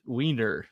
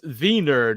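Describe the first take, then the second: First: "Wiener" said with an English W, as WEE-ner; English W sound. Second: "Wiener" said with a V, as VEE-ner; German V sound. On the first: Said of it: "it's Wiener". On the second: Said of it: "not Wiener". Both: Shown as a demonstration.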